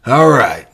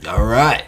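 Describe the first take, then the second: First: All right, pushed louder. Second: Said in the usual way. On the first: Real, not acted. Wrapping up the accent bit.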